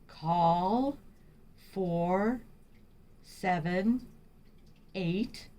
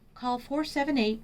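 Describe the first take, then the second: First: Spoken slowly with long pauses between words. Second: Spoken at normal speed without pauses between words. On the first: The speaker calls it wrong. "Don't talk too slow or have long pauses between words like" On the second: The speaker calls it right. "You want to talk at a normal speed"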